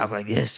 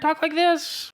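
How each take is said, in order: First: The voice is pitched at its normal low level. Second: The voice is pitched noticeably higher.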